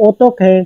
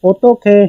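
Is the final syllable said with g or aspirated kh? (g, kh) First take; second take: kh; kh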